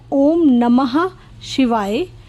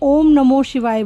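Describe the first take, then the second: First: The middle word ends with an 'ah' sound. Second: The middle word ends with an 'o' sound. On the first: The speaker calls it right. "जो मंत्र है exactly वो है" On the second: The speaker calls it wrong. "कुछ संगत को लगता है कि ओम नमो शिवाय बोलते हैं"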